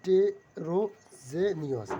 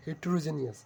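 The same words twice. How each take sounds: First: Heterogeneous said loudly and very slowly; loud slow model word. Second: Said in the usual way. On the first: Shown as a demonstration. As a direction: proclaim heterogeneous, stretching every syllable. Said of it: "model word, loud and slow". (জোরে ও ধীরে heterogeneous উচ্চারণ) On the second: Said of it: "normal repeat".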